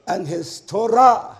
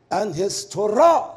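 The two takes are said the same way.

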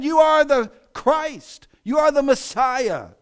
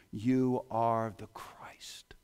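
First: Much higher, louder, slow declaration; triumphant proclamation. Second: Slow, hushed whisper; awed whisper. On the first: Peter declares to Jesus in a loud, slow proclamation. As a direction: proclaim it to the whole church. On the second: Peter confesses to Jesus in a slow whisper. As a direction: breathe it in awe. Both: Acted.

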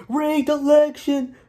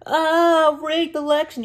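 First: Slow, high drawn-out mocking whine; mocking sore loser. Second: High mocking whine of a sore loser. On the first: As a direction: stretch it out slowly in a high put-on whine. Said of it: "going all over social media saying". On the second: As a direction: sneer it in a put-on high voice like a whiny loser. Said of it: "the whole world saying".

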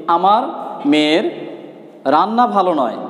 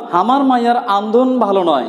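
First: Said in the usual way. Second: The Rangpur regional way, হামার for আমার, আন্দন for রান্না; Rangpur dialect. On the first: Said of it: "এটা যদি প্রমিত ভাষায় বলি". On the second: Shown as a demonstration. Teacher gives students a Rangpur dialect sentence, Rangpur accent. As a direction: say it in plain Rangpur village dialect. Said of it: "Rangpur অঞ্চলের আঞ্চলিক ভাষা যদি একটি কথা বলি".

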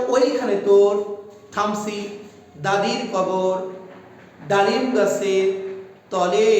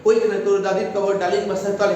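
First: Slow, with clear pauses after তোর, কবর and গাছের; pausing at each beat. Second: Fast, run-on reading of the whole line; rushed reading. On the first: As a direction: recite it beat by beat, stopping between feet. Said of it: "এই যে থেমে থেমে করছি". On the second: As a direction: rattle it off without the beats. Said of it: "হবে না". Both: Shown as a demonstration.

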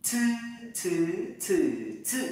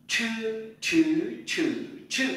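First: "Chư" as a puffed ts, through four tones; tongue straight, burst air on each "chư"; aspirated flat-tongue c. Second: "Chư" with curled tongue and puff of air, four tones; aspirated retroflex ch. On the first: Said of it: "C đi với Y bật hơi". (đọc "chư" thẳng lưỡi, bật hơi) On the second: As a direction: curl and burst air on each "chư". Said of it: "cong lưỡi bật hơi trở lại". (đọc "chư" cong lưỡi, bật hơi) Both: Shown as a demonstration.

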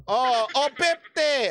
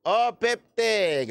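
First: Slow, higher caller's call of the number; bingo caller. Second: Slow, steadier call of the number; bingo caller. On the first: Calling the drawn ball for viewers, slow caller voice. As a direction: announce the ball like a bingo host. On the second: Repeating the drawn ball for viewers, slow caller voice. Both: Shown as a demonstration. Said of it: "Ganito maglaro ng bingo".

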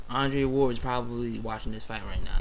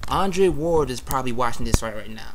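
First: Said in the usual way. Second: Voicing the thought louder, animated; acting out an eager inner thought; excited. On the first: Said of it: "That's what I was thinking". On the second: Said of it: "I was thinking in my mind, like".

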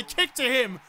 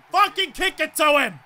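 First: Said in the usual way. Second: Louder, forceful outburst; angry yell. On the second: Real, not acted. Gamer repeating his ignored kick command, angry yell. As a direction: yell the order at a deaf teammate.

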